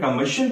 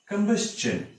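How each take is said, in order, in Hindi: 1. अंतिम अक्षर से पहले कोई s ध्वनि नहीं आती। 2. अंतिम अक्षर से पहले s ध्वनि आती है। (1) "अक्सर इसे अंग्रेजी में कंबशन पढ़ते हैं" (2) "ये इसका सही उच्चारण होगा"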